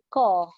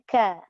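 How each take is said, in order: First: The sound is thick with a rounded vowel. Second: The sound is thin with an open vowel. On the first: The speaker calls it wrong. "dia tidak tebal, dia tak boleh baca ko" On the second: The speaker calls it right. "Dia kena ka"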